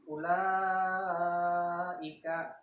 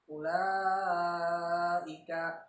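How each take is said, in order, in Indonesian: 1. Vokal panjang dibaca lima ketukan. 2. Vokal panjang dibaca lima ketukan.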